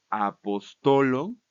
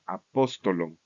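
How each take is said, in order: First: Very slow "apostolon", stress on TO; penultimate stress. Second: Low-pitched "apóstolon", stress on PÓS; antepenultimate stress. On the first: Teacher showing plural genitive, slow stress on TO in "apostolon". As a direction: spell out "apostolon" by syllable, punching TO. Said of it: "se va a cambiar a la penúltima sílaba". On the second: Teacher moving the accusative accent back, stress on PÓS in "apóstolon". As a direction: stress the second syllable of "apóstolon". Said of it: "lo volvemos a poner en la antepenúltima". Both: Shown as a demonstration.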